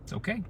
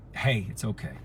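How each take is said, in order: First: Clipped "It's okay" with a rising edge; curt dismissive okay. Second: Soft, lower "hey, it's okay"; gentle reassurance. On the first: The cold texting version of it's okay, curt. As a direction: toss off "It's okay" as if it isn't. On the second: Voice message to someone upset, soft and tender. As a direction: ease them down softly, like a hand on the shoulder. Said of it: "so they can hear the tone in my voice". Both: Shown as a demonstration.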